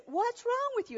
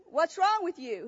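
First: High-pitched mock yell without real volume; retold yell. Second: Said in the usual way. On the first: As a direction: pitch it up as if to someone deaf. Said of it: "he yells it really loud".

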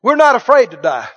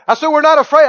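First: Bold declaration. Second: "afraid" pushed higher and louder, insisting; insistent repeat. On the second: Preacher repeating to the congregation, higher and louder on "afraid". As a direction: hammer home "afraid" on the repeat. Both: Real, not acted.

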